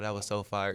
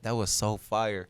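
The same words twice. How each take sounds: First: The voice sounds flat and unenthusiastic. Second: The voice sounds genuinely excited and lively. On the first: The listener is only being polite. "instead of like" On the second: The listener truly liked the song. "I can tell when somebody's really like excited about something"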